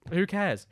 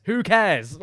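First: Said in the usual way. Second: Second Who cares? pushed out much louder; louder insistent Who cares?. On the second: Shown as a demonstration. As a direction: repeat Who cares? with a loud punch. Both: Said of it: "repeats who cares louder".

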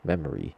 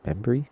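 First: "Memory." said properly as mem-ree, falling; corrected memory. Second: "Memory?" said as mem-bery with an extra b, rising; mispronounced memory. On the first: Host correcting himself, plain mem-ree. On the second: Host tripping over a word, saying mem-bery. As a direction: stumble into mem-bery, questioning. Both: Shown as a demonstration.

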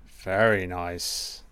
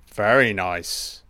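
First: Much softer and slower, savouring it; soft slow murmur. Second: Said in the usual way. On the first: Shown as a demonstration. Film fan admiring the opening titles, murmured softly. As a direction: murmur it to yourself, drawn out.

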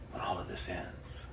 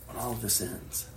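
First: Hushed, breathy whisper; softly whispered opening. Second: Said in the usual way. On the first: Real, not acted. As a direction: whisper it like a secret.

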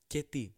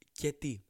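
No difference in how they are said.

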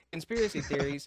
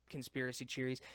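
First: Said in the usual way. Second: "cheeries" with a CH at the start, meant as theories; tongue-tied "cheeries" with an opening CH sound; slip of tongue. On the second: Real, not acted. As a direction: stumble into "cheeries", CH replacing TH. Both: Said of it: "I'm not dyslexic".

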